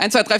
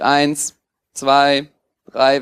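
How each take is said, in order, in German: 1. Die Zahlen werden schnell gezählt, in rascher Folge. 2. Die Zahlen werden langsam gezählt, eine pro Sekunde. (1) "zählt zu schnell" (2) "der normale Takt zum Zählen ist so Pi mal Daumen eine Sekunde"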